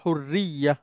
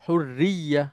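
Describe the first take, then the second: First: The word is cut short, ending in -ya. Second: The word is cut short, ending in -ya.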